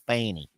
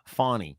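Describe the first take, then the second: First: The first vowel is a short 'a' sound. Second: The first vowel is an open 'aw' sound. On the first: This is how people in the South say it. The speaker calls it right. "We say" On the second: This is how outsiders on the news say it. The speaker calls it wrong. "they call her Fawny"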